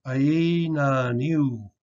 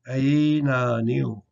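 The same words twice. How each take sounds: First: Aina niu drawn out very slowly, long E at the end; slow model word. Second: Aina niu again, very slow, long E in niu; slow repeat. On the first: Teacher modelling the word for eight, very slowly. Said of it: "we have the two sounds". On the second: Teacher repeating the word for eight slowly. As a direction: stretch aina niu out carefully. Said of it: "It changes to a long E sound". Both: Shown as a demonstration.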